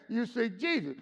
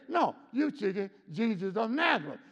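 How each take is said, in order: First: Said in the usual way. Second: Nazareth pressed, full name given weight; the full name said as a point; stress on Nazareth. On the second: Shown as a demonstration. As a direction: lean into of Nazareth. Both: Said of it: "He could have just said".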